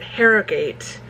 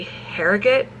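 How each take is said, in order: First: Harrogate as HARE-oh-gate; own pronunciation. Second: Harrogate as HARE-uh-git; probable local pronunciation. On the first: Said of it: "I would pronounce it". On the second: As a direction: say Harrogate with a short, reduced "-git" ending. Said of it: "it's probably actually". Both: Shown as a demonstration.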